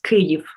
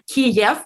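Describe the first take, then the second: First: The name is said with its Ukrainian pronunciation. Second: The name is said with its Russian pronunciation. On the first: This is the local form of the name. The speaker calls it right. "to be correct" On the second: This is the old form borrowed from another language. The speaker calls it wrong. "but it's basically Russian"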